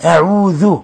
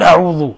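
First: أعوذ with a thin, unemphatic ذ; correct light dhal. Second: أعوذ with the ذ made thick and emphatic, like ظ; mispronounced أعوذ, heavy velarised ذ; wrong heavy dhal. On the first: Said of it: "لا تفخم الذال". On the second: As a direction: darken the ذ in أعوذ as a mistake. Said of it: "لا تقول أعوذ". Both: Shown as a demonstration.

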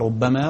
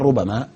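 First: "ربما" with a doubled, held b: rub-ba-maa; باء مشددة. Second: "ربما" with a short single b: ru-ba-maa; باء مخففة. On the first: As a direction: stress the b in "ربما" as a geminate. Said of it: "تشدد أحيانًا فيقال". ("ربما" بتشديد الباء) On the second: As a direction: keep the b light and undoubled in "ربما". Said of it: "وتخفف أحيانًا فيقال". ("ربما" بتخفيف الباء دون تشديد) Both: Shown as a demonstration.

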